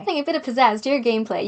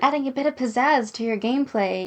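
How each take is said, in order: First: It is read with lively, exclamatory energy. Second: It is read in a plain, flat way.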